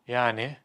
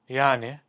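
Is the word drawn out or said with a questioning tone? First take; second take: questioning; questioning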